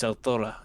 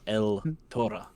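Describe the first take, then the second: First: The name is run together as one word. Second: The name is split into two separate words. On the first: The speaker calls it right. "It's one word" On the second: The speaker calls it wrong.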